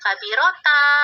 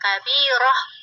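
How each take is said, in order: First: The word ends with a t sound. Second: The word ends with an h sound. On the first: The speaker calls it wrong. "nggak baca kabirota" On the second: The speaker calls it right. "tetap dibaca kabiroh"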